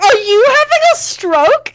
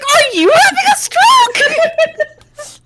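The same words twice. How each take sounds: First: Higher, louder baffled question. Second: High, slow, laughing echo; laughing mock echo. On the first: Retold or imitated. Wife retelling asking husband, baffled question. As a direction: ask it in plain confusion. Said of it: "And I was like". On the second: Wife retelling husband's echo, laughing through it. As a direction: stretch the echo out, cracking up. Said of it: "he's like".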